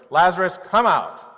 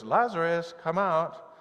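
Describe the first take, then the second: First: Loud, forceful call with flaring nostrils; Jesus calls Lazarus from the tomb in anger, shouting; fierce shout. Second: Said in the usual way. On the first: Retold or imitated. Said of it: "still nostrils flaring, going". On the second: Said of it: "do you think he goes".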